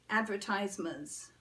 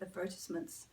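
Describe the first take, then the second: First: It is said without a British accent. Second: It is said with a British accent.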